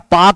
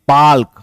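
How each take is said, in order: First: No L sound is heard before the K. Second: An L sound is heard before the K. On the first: The speaker calls it wrong. "पाक नहीं, पाक पाकिस्तान वाला नहीं" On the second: The speaker calls it right. "है ये पाल्क"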